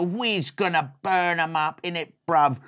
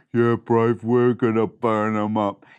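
First: Lightly voiced street-slang mouse; a touch of swagger, at normal pitch; cocky brother. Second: Low, loud mouse tough guy; deep-voiced brother. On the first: Mouse brother planning a chicken chase, cocky. First brother, contrasts with deep reply. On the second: Mouse brother agreeing to chase chickens, deep-voiced. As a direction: drop it down low, agreeing with swagger.

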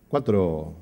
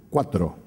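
No difference in how they are said.

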